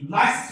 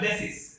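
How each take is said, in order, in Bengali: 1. প্রথম স্বরধ্বনিটি 'lie'-এর মতো শোনায়। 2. প্রথম স্বরধ্বনিটি 'leh'-এর মতো শোনায়। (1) "লাইসিস হবে না"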